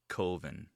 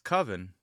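First: The word does not rhyme with oven. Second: The word rhymes with oven. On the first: This is the filmmaker's own pronunciation. "but he pronounces it Coven" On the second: This is the usual pronunciation. "It's Coven"

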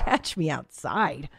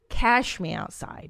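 First: The first word ends with a full 'tch' sound. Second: The first word ends with a 'sh' sound.

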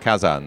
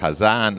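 First: The name begins with a hard K sound. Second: The name begins with a soft breathy sound. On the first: The speaker calls it wrong. "and not Kazan" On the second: The speaker calls it right. "It is Hazan"

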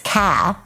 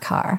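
First: It is said in a New England accent, r dropped. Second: It is said without New England accent, r pronounced.

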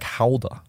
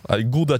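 First: The word begins with a breathy H sound. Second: The word begins with a hard G sound.

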